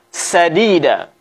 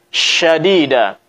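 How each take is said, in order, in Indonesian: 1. Kata ini diawali dengan bunyi 's' biasa. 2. Kata ini diawali dengan bunyi 'sh'. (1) "Jangan sampai kita baca sadida" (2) "Tetapi yang benar adalah syadida"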